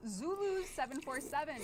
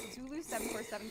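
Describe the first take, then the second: First: High, bright winner reveal; excited announcement. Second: Said in the usual way. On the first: Real, not acted.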